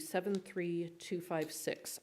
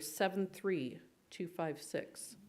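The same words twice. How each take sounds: First: The number is read at an ordinary pace. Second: The number is read very slowly.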